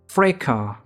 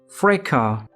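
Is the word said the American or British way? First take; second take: British; British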